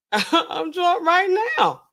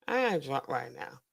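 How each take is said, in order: First: Put-on slow, higher, drawn-out drunk voice; drunk imitation. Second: Said in the usual way. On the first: Imitating a drunk pilot boasting, slow and higher. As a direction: stretch it out like a drunk man bragging. They say they're drunk on air.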